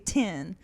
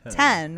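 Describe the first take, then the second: First: The vowel is raised toward an 'i' sound. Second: The vowel is a plain, open 'e' sound.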